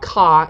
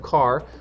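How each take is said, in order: First: The final R sound is dropped. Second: The final R sound is pronounced.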